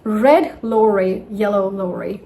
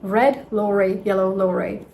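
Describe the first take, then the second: No difference in how they are said.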